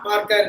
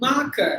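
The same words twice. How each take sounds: First: "marker" with both r's pronounced; sounded R. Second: "Marker" as maa-kuh; silent R. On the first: Teacher shows students what not to say, r-sounded demonstration. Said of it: "Not marker". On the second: Teacher models both silent R's, r-less demonstration. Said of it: "Both R's are silent". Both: Shown as a demonstration.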